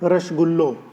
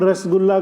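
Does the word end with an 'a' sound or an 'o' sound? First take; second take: o sound; a sound. First: The word ends with an 'o' vowel. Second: The word ends with an 'a' vowel.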